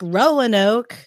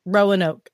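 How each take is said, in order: First: Roanoke said slowly with a rising SoCal lilt; SoCal pronunciation. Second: Said in the usual way. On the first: Shown as a demonstration. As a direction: drag out Roanoke the way Southern Californians say it. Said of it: "it's very SoCal-y to say it 'cause I'm from SoCal". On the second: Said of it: "it's very SoCal-y to say it".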